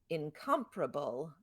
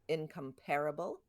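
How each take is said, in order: First: The stress is on the syllable com. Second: The stress is on the syllable pair. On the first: It sounds British. "accent on com, which sounds British to me" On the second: It sounds American. "accent on pair, which sounds American to me"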